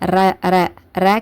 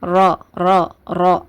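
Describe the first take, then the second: First: The r sound is light. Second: The r sound is heavy. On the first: The speaker calls it wrong. "ர ர ர கிடையாது" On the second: The speaker calls it right. "ராவை வல்லினமாக உச்சரிக்கணும்"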